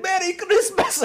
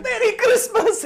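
First: High, gleeful cry as cash flies; mock-joyous Isaac, high and loud; gleeful shout. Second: Very high, laughing mock-cheer; hammed-up Isaac, very high and laughing; laughing squeal. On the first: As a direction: fling the words out like the money. Isaac's cash-throwing scene retold. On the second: Isaac repeats with the cash.

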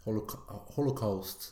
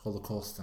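First: "holocaust" with a full A-U diphthong, KAUST; pronounced AU. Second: "Holocaust" ending in KOST, a plain o; AU not pronounced. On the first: Co-host showing how the other says it, pronounced AU. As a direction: demonstrate "holocaust" with the AU sounded out. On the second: Co-host contrasting his own way with the other's, AU not pronounced. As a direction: say "Holocaust" without the AU diphthong. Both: Shown as a demonstration. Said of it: "du uttaler A-U-en".

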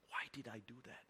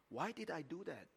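First: Unvoiced whisper to himself; whispered self-reproach. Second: Said in the usual way. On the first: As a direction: hush it like a private regret. Thinking to himself in car.

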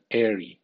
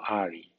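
First: Airy said AIR-ee; correct sound. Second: Airy said Spanish-style AH-ree; wrong sound. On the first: Teacher gives the right ending, plain. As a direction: give airy its English AIR-ee. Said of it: "Suena airy". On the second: Teacher shows the ending to avoid. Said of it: "no airy". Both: Shown as a demonstration.

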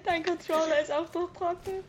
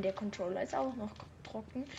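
First: Higher, puzzled echo question; incredulous question. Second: Quiet correction. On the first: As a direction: ask back in disbelief. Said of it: "Ich meine, der Controller". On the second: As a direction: mutter the correction. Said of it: "Ich meine". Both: Real, not acted.

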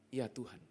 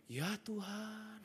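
First: Said in the usual way. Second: "Ya Tuhan" slow, drawn out, soft and reverent; different intonation. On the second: Shown as a demonstration. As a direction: linger over "Ya Tuhan" slowly and quietly. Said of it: "tapi intonasinya beda". (ucapkan "Ya Tuhan" pelan, panjang, dan lembut)

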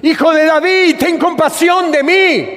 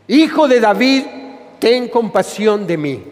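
First: High-pitched pleading shout; acted louder cry. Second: Calling out, then easing back down; a restrained plea called out to Jesus; mild acted cry. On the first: Blind man crying after Jesus to be heard, acted loud cry. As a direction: cry out higher so he hears you. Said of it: "grita más fuerte vos, que no te escucha". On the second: Blind man calling after Jesus for mercy, mild acted cry.

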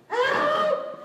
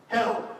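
First: Very high, loud scream; one piercing, stretched shout; desperate cry for help. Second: Said in the usual way. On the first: Acted. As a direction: scream HELP as a prayer to God. Same prayer screamed.

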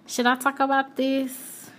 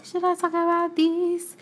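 First: Said in the usual way. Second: High, put-on singsong question; higher, playful deliberating voice; hesitant wondering. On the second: Real, not acted. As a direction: wonder aloud on a raised pitch. Repeats the question, putting it on.

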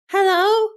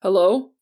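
First: High, loud phone greeting with rising end; high-pitched voice. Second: Louder, deeper police sergeant's hello. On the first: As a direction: answer the phone in a high, bright-pitched character voice. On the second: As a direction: come on the line in a deeper voice. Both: A narrator's reading. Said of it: "came a deeper voice".

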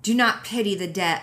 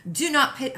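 First: Said in the usual way. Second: High British-accented start, cut off; failed British accent attempt. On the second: Shown as a demonstration. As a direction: try a British accent, pitched up. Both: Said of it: "I gotta have a British accent".

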